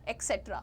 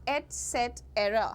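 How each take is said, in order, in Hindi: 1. इसकी शुरुआत 'ex' की आवाज़ से होती है। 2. इसकी शुरुआत 'et' की आवाज़ से होती है। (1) "बहुत सारे लोग कहते हैं" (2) "द करेक्ट प्रोनाउंसिएशन इज"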